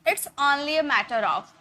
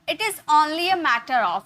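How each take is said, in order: First: It is said as one contracted word. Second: It is said as two full words.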